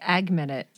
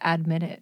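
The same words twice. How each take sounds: First: A G-like sound is inserted in the words. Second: No G-like sound is inserted in the words. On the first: The speaker calls it wrong. "Sounds like you're saying admit it" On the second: The speaker calls it right. "instead of admit it"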